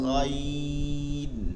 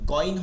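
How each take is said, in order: First: The first sound is a rasping fricative in the throat. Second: The first sound is a plain stop g. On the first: The speaker calls it right. "এটা একটু গড় করবে মধ্যে" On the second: The speaker calls it wrong. "গইন হবে না, বাংলা গ দিয়ে না"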